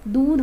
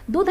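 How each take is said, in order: First: दूध said carefully, the right way; correct pronunciation. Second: दूध said higher, the wrong way; the incorrect दूध; wrong pronunciation. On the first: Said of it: "ये शुद्ध शब्द है". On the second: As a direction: show the mistaken दूध. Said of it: "नहीं है". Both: Shown as a demonstration.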